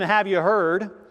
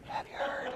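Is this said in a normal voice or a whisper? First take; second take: normal voice; whisper. First: The words are said in a normal voice. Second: The words are said in a whisper. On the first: What follows may or may not be believed. "in a normal tone of voice" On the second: What follows will be believed. "it's more believable if you actually say, have you heard?"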